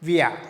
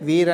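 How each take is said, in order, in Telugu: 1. చివరి 'r' 'a' ధ్వనిగా మారుతుంది. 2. చివరి 'r' స్పష్టమైన 'r' గా పలుకుతారు. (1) "అదే వియా అని పలికినామనుకో అది జర్మన్ వాళ్ళు, ఇతను జర్మనే" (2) "నాన్ నేటివ్స్ ఆఫ్ జర్మన్స్ పలికేది ఏమి దాన్ని వీర్ అని పలుకుతాం"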